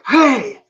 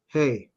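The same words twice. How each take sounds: First: It is shouted loudly. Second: It is said firmly but calmly.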